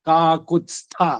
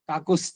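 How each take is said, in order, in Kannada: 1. stha ಗೆ ಮುಂಚೆ t ಧ್ವನಿ ಕೇಳಿಸುತ್ತದೆ. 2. stha ಗೆ ಮುಂಚೆ ಇರುವ t ಧ್ವನಿ ಬಿಡಲಾಗುತ್ತದೆ.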